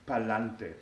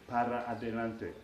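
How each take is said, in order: First: The words are run together and shortened. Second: Every word is said in full. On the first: It is casual street slang. "This is kind of a contraction. This is a, a street pronunciation. It's very colloquial" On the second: It is the proper standard form. "Properly said, it would be para adelante"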